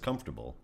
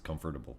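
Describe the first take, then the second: First: The middle syllables are squeezed together and reduced. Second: Every syllable is said fully, like comfort plus able. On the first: This is how most people say it. "everybody else says comfortable" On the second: The word is read as able to be comforted. "it's comfortable for me ... you're able to be comforted"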